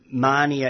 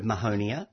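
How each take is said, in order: First: "Mania" as MAH-nia, two or three syllables; prescribed pronunciation. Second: "Mahonia" as ma-HOE-nia; stressed HOE in "Mahonia"; usual pronunciation. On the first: Plant expert showing the strict rule, "Mania" said MAH-nia. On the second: Plant expert citing the common form, "Mahonia" said ma-HOE-nia. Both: Shown as a demonstration. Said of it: "instead of Mahonia".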